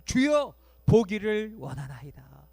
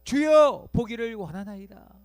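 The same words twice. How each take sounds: First: Loud plea. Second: Louder plea. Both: Pretend. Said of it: "바디메오가 뭐라고 대답해요?".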